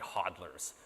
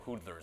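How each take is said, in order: First: The first vowel sounds like the vowel in 'hod'. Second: The first vowel sounds like the vowel in 'hood'. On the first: The speaker calls it right. "it's obviously hodlers" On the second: The speaker calls it wrong. "I don't know why he pronounces it that way"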